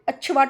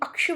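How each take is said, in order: First: The middle sound is a plain 'ch' sound. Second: The middle sound is a clear 'ksh' cluster. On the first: The speaker calls it wrong. "अच्छवाट बोल के चले जाते हैं, वो भी गलत है" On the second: The speaker calls it right. "यानी अक्षवाट"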